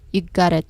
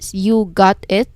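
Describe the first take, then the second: First: The words blend together into one smooth unit. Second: Each word is said separately with clear breaks. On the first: The speaker calls it right. "Usually they said" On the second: The speaker calls it wrong. "They do not say like separately"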